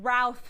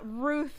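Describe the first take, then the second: First: The name does not sound like 'Ruth'. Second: The name sounds just like 'Ruth'. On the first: The speaker calls it right. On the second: The speaker calls it wrong.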